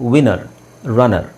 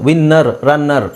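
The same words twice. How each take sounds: First: The middle consonants are single and short. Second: The middle consonants are doubled and held long. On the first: The speaker calls it right. "But English ಅಂತ ಬಂದಾಗ" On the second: The speaker calls it wrong. "ಕನ್ನಡದಲ್ಲಿ ಹೇಳಬೇಕಾದ್ರೆ ಅದು ಹಾಗೆ ಬಂದಿರೋದು"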